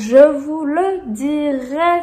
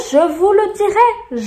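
First: Slow, deliberate repetition; slowly spelled-out insistence; drawn-out promise. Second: High, loud insistence; loud, high-pitched warning; emphatic promise. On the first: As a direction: stretch every syllable for emphasis. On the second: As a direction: promise it forcefully, pitched right up. Emphatic promise, then repeated slowly. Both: Real, not acted.

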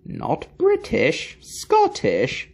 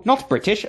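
First: Not British, Scottish said much higher and slow; British and Scottish drawn out high in exasperation; fed-up, high-pitched, slow correction; exasperated correction. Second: Not said higher and hit hard; correcting with a stressed not. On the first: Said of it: "For the last time, laddie". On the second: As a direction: lean on the word not, higher. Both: Acted.

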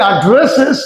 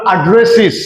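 First: অ্যাড্রেসেস ending in short "-ses"; old "-es" ending. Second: অ্যাড্রেসেস ending in "-siz", falling; new "-iz" ending. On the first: Teacher recalling the earlier way, অ্যাড্রেসেস with "-ses". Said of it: "তাহলে আগে আমরা বলেছি". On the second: Teacher showing the corrected way, অ্যাড্রেসেস with "-siz". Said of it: "এখন আমরা ইজ উচ্চারণ করব". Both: Shown as a demonstration.

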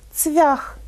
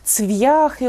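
First: Цвях higher, with V melting into the vowel; soft V. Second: «цвяхи» with hard V and a y-glide; hard V misreading. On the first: Teacher corrects the sign, soft V in Цвях. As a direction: say Цвях as tsvyakh, no glide. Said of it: "м'яко". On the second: Teacher reads a misspelt sign, hard V in «цвяхи». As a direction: say «цвяхи» as tsv-ya-khy. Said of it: "можна побачити такі надписи". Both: Shown as a demonstration.

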